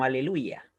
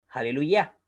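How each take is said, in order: First: "aleluya" with silent h, stressed on "lu"; Spanish pronunciation. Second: "aleluya" in Hebrew, breathed h first and stress on final "ya"; final-syllable stress. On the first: Teacher citing Spanish Bibles, "aleluya" the Spanish way. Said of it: "se ha transliterado como aleluya". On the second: Teacher showing the Hebrew form, "aleluya" stressed on "ya". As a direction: hit the last syllable of "aleluya". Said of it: "con acentuación en la última sílaba". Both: Shown as a demonstration.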